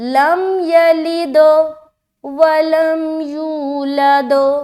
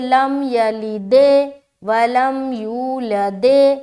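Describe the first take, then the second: First: The d releases with an 'o'-like vowel. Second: The d releases with an 'e'-like vowel. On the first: The speaker calls it right. "द द ऊपर खुलेगा" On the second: The speaker calls it wrong. "दे दे ऐसा नहीं करना"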